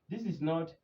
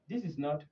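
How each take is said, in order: The two takes are said the same way.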